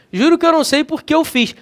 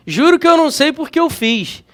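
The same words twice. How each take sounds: First: Fast casual pronunciation, por que said lightly; fast, relaxed everyday delivery; quick everyday speech. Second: Said in the usual way. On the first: Shown as a demonstration. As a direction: rattle it off like daily talk. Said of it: "Numa fala dinâmica, rápida". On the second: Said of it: "olha como é que você pronuncia".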